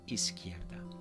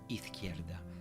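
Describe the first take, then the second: First: The z sounds like English 's'. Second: The z sounds like English 'th'. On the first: "just go for the N S sound" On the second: "not izquierda"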